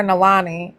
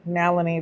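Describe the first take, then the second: First: Nalani said nah-LAH-nee; alternative pronunciation. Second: Nalini said NAL-uh-nee; doubtful pronunciation. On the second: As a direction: stress the first syllable of Nalini, short middle vowel. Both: Shown as a demonstration. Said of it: "that sounds ho-, terrible".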